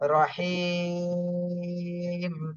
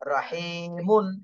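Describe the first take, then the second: First: The long 'i' is stretched; ends on a bare m. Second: The word ends with a short 'un' after m. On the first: The reader stops on this word. "তিন আলিফ টান দিয়ে তারপরে মিমে সাকিন দিতে হবে রহিম।" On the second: The word is read out letter by letter. "এটা তো বানান পড়লাম।"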